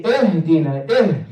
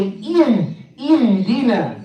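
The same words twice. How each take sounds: First: "ihdina" opened towards eh-dina; dull kasra mistake. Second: "ihdina" with a sharp ee vowel; sharp kasra. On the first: Teacher showing the mistake, "ihdina" with a dull first vowel. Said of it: "not making the kasra sharp enough". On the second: Teacher correcting learners, "ihdina" with sharp kasra. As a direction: start "ihdina" on a clear, higher ee. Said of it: "but it's E". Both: Shown as a demonstration.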